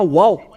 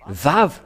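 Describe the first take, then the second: First: The word begins with a W sound. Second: The word begins with a V sound. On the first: The speaker calls it wrong. "mais pas wow" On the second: The speaker calls it right. "c'est vave la vraie prononciation"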